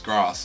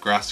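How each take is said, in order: First: It is said with a southern accent. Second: It is said with a Midlands accent.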